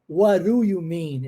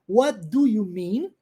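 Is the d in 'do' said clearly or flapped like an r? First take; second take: flapped; clear. First: The d is flapped, sounding like an r. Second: Each word is said carefully with a clear d. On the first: "a pergunta mais utilizada. Esse D transformado em R" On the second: "a pronúncia correta, bonitinha"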